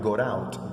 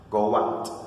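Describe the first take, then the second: First: A T sound joins the two words. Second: A W glide joins the two words. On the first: The speaker calls it wrong. "students put an imaginary T or D sound in there" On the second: The speaker calls it right. "the connector is naturally the O"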